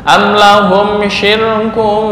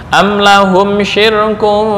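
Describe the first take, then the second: No difference in how they are said.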